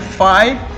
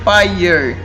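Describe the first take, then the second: First: The word ends in an ah-like vowel, no r. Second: The word ends with an audible r sound. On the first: "Se for britânico é fire" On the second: "se é americano, é, ... É er, fire"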